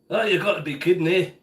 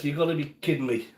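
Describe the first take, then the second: First: Put-on light Scottish accent; a touch of Scottish burr. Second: Said in the usual way. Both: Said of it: "I'll slip into my Scottish accent".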